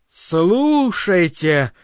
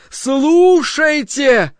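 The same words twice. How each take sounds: First: Very slow, drawn out; slow call. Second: Very slow, higher and louder trumpet-like call. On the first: Voice calls the worshippers to listen, slow and stretched. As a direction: stretch the word out long and even. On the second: Voice summons the worshippers, slow trumpeting cry. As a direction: blare the word out like a trumpet. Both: A narrator's reading. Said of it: "трубно воззвал голос".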